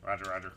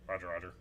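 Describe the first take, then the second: First: It is said in a put-on robot voice. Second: It is said in a normal speaking voice.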